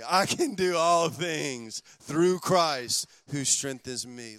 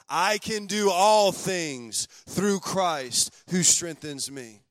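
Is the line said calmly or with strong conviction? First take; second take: calmly; strong conviction. First: It is said in a plain, calm reading voice. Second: It is said forcefully, with strong conviction.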